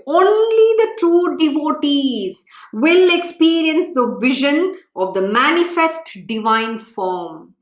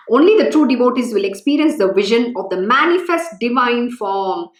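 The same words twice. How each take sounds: First: Slow, weighty, every word spaced; slow emphatic repeat. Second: Said in the usual way. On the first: Shown as a demonstration. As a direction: drive the words home slowly so they remember. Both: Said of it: "Please remember the words".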